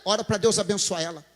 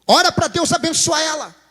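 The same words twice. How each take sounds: First: Said in the usual way. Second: Higher, insistent command; emphatic repeat. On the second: Shown as a demonstration. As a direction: drive the instruction home.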